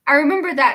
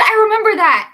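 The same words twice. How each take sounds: First: Said in the usual way. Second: Higher and louder, thrilled; excited outburst. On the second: Real, not acted. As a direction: shout the memory back gleefully. Excited recall.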